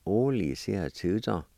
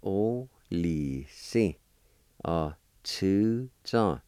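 First: Said in the usual way. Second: "O li si, uh, two zong" spoken very slowly with each syllable separated; slow model pronunciation. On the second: Shown as a demonstration. Teacher modelling the word for grandson slowly for learners. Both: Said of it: "First part is pronounced like this".

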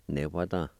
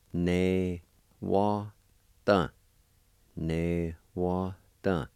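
First: Said in the usual way. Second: Ne wa dun slowly, a gap after each syllable; syllable-by-syllable demo. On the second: Shown as a demonstration. Teacher showing the word for grit, Ne wa dun syllable by syllable. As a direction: stretch and separate Ne wa dun. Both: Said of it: "is pronounced like this".

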